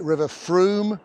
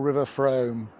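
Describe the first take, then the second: First: Frome rhymes with broom. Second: Frome does not rhyme with broom.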